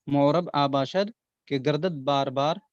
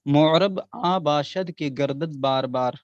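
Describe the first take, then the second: First: Said in the usual way. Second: Slow verse recital. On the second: Shown as a demonstration. Teacher reciting the couplet to students, slow and measured. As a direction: recite the Persian couplet slowly and evenly. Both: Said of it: "ये शेर याद कर लें".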